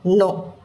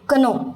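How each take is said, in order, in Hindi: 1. इस शब्द की शुरुआत n ध्वनि से होती है। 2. इस शब्द की शुरुआत k ध्वनि से होती है। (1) "सिर्फ नो" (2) "अभी कनो नहीं पढ़ेंगे"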